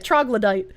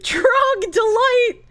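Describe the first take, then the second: First: The middle of the word sounds like 'glo'. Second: The middle of the word sounds like 'dol'. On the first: The speaker calls it right. "but yeah, troglodyte" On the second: The speaker calls it wrong. "maybe I messed it up at one point saying trogdolite"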